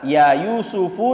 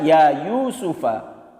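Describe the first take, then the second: First: Yusuf ends with a short u vowel. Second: Yusuf ends with a short a vowel. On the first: "Kalau tadi dibaca ya Yusufu" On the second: "sekarang dibaca ya Yusufa"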